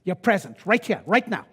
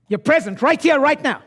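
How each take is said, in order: First: Said in the usual way. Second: "You're present right here, right now" higher and louder. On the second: Shown as a demonstration. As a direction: fire it up at the room. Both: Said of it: "repeats it louder".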